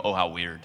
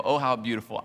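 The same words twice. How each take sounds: First: Lower, dry oh how weird; a deadpan put-down. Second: Airy, admiring sigh of a reader; a gushing little oh, how beautiful; mock admiration. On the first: Retold or imitated. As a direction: flatly put off, dropping the pitch. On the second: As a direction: fake admiration. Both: Contrast of readings.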